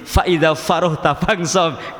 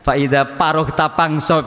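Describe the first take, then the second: First: It is recited with standard Arabic pronunciation. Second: It is recited with a Sundanese regional accent. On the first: The speaker calls it right. "distandarkan nasional" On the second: The speaker calls it wrong. "Kalau orang Sunda biasanya"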